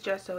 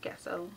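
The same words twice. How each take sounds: First: The word begins with a 'jess' sound. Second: The word begins with a different sound. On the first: The speaker calls it right. "it is gesso" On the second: The speaker calls it wrong. "it's not gesso"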